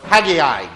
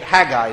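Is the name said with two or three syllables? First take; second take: three; two. First: The name is said with three syllables. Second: The name is said with two syllables. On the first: "depending upon how you pronounce it" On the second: "it's less syllables and I'm from the South"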